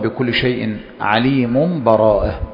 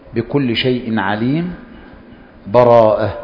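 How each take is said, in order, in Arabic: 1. الكلمتان تتصلان بلا سكوت. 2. فيه وقف مع نفَسٍ بين الكلمتين. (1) "الحالة الأولى وصل السورتين" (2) "الوقف ... فمع الوقف تأخذ نفسا"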